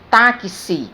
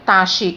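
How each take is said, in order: First: The x is said as two consonants, ks. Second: The x is said as a single consonant sound. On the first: The speaker calls it right. "eu pronuncio táxi" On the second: The speaker calls it wrong. "mas eu não pronuncio taxi"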